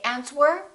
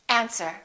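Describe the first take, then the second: First: A W sound is heard in the word. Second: No W sound is heard in the word. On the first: The speaker calls it wrong. "Don't say answer" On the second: The speaker calls it right. "say answer"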